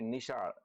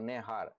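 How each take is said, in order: First: It is said with standard Gujarati sounds. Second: It has an e vowel, h, and final r. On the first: "દાખલા તરીકે" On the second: "ઈ અને અળની જગ્યાએ એ અને ર બોલવામાં આવે"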